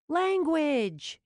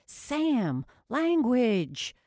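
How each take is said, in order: First: High, loud scolding snap; sharp snap. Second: High, loud scolding. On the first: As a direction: snap it out as a rebuke. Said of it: "Jules snapped". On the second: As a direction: call out a sharp rebuke. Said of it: "even harder not to laugh". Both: Acted.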